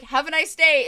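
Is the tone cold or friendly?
friendly. It sounds friendly and cheerful.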